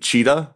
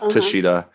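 First: The surname sounds like the animal's name. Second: The surname has three syllables, starting with 'ta'. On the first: The speaker calls it right. "like the animal" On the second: The speaker calls it wrong. "not Tashita"

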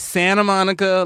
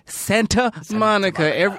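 First: The T in Santa is dropped. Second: The T in Santa is clearly pronounced. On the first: This is how ordinary local people say it. The speaker calls it right. "we all have agreed to not pronounce the T" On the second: This is how the radio announcers say it. The speaker calls it wrong. "And they're"

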